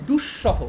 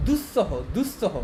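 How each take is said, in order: First: দুঃসহ as dush-shoho, with a sharp sh; sharp sh pronunciation. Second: দুঃসহ slowly as dus-soho, with s; spelling pronunciation with s. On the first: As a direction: press the sh in দুঃসহ. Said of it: "তালব্য স্বরটা একটু শার্পভাবে". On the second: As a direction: read দুঃসহ as spelt, s not sh. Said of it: "বানান অনুযায়ী এটা হওয়া উচিত". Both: Shown as a demonstration.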